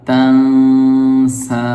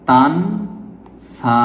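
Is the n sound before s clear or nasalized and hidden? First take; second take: nasalized; clear. First: The n is hidden with a nasal hum. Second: The n is pronounced as a clear n. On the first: The speaker calls it right. "এখানে একফা গুন্না এসেছে।" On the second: The speaker calls it wrong. "এখানে যদি আপনি এভাবে পড়েন"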